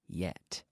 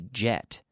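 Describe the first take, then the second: First: The word begins with a Y sound. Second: The word begins with a J sound. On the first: The speaker calls it right. "but say y- yet" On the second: The speaker calls it wrong. "don't say jet"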